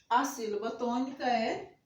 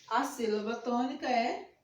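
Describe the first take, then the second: No difference in how they are said.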